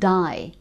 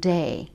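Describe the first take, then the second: First: The vowel sounds like the one in 'die'. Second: The vowel sounds like the one in 'day'. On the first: "that die rather than day" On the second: "rather than day"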